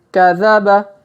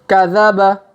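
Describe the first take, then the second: No difference in how they are said.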